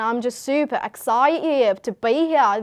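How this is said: It is spoken in an Australian accent.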